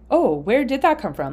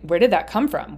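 First: It sounds open and curious. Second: It sounds annoyed and accusing.

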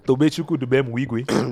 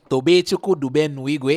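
First: The name is said emphatically at a lower pitch. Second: The name is said emphatically at a higher pitch. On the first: "put more emphasis on his name" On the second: "More emphasis. Why'd you go higher?"

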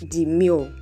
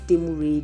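First: The word is said with English pronunciation. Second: The word is said like a Yoruba name. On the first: It is the English word meaning modest. The speaker calls it right. "It's the English word Demure" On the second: It is taken as a Yoruba personal name. The speaker calls it wrong. "It's not Demure"

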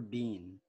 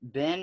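First: The vowel is long, as in teen. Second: The vowel is short, as in tin.

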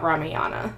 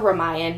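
First: The name ends with an extra a vowel. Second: The name ends with the consonant n. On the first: The speaker calls it wrong. "not Ramayana" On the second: The speaker calls it right. "It's also Ramayan"

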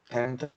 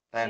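First: The word ends with an added vowel. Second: The word ends on a bare consonant. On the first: "Bahasa Koreanya tente" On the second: "Tenda bahasa Inggrisnya kan tent"

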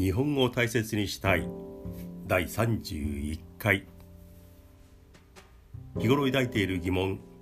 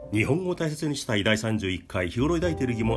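First: It is spoken slowly and carefully. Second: It is spoken very fast and energetically. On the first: "できるだけ丁寧にゆったりとした正しい日本語で話します" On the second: "できるだけ早口でスピード感十分な日本語で話します"

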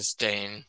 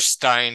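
First: The name is said like the word 'stain'. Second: The name is said with a 'stine' sound. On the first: The speaker calls it wrong. "like a stain on your shirt" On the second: The speaker calls it right. "how dare you change it, Stein to Stain?"

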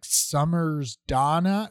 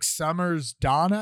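First: It is said more slowly. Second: It is said at normal speed.

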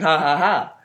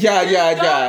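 First: Each syllable starts with an H sound. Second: Each syllable starts with a J sound. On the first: It is read the Spanish way. "Y'all saying "ha ha ha,"" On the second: It is read the English way. "We're reading it in English and not in Spanish"

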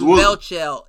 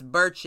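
First: The name begins with a 'bel' sound. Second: The name begins with a 'bur' sound. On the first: The speaker calls it wrong. "I was calling him Belchell" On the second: The speaker calls it right. "It's Burchell"

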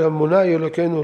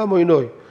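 First: It is said with Sephardi vowels, ending -einu. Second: It is said with Ashkenazi vowels, ending -oynoy.

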